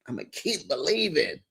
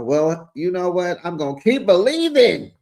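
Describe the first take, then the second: First: Softer, almost to herself; a hushed echo of the vow. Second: Louder, higher proclamation; a bold loud vow; declared out loud. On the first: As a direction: repeat it as a quiet private hope. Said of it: "said loud first, then this". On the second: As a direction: announce it proudly to the room. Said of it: "repeats it softly after". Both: Shown as a demonstration.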